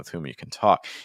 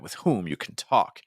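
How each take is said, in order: First: The word whom is unstressed, flowing smoothly. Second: The word whom is stressed, sounding punchy. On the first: The speaker calls it right. "by removing that stress on whom, I'm just able to flow a lot more" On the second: The speaker calls it wrong. "it makes it really punchy"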